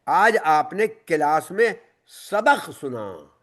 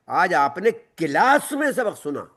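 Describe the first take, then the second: First: The stress is on सबक सुना. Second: The stress is on class.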